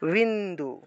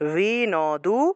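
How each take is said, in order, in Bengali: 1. n, d-এর সাথে যুক্ত। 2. n একটি পূর্ণ আলাদা সিলেবল। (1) "হসন্ত থাকলে একসাথে উচ্চারণ হয়" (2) "এখানে হসন্ত নাই"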